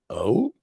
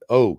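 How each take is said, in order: First: It is said as a rising question. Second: It is said as a falling statement.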